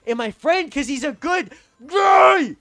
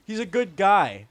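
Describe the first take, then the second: First: Loud, high wail on GUY; slow, high outburst of frustration; exasperated shout. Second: Said in the usual way. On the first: Real, not acted. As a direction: yell it, dragging out "guy". Exasperated outburst defending his friend.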